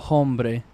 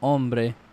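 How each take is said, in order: First: The word starts with a pronounced h sound. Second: The word starts with no h sound. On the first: The speaker calls it wrong. "you don't go hombre" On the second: The speaker calls it right. "You would say oh, oh, oh. ... You go hombre"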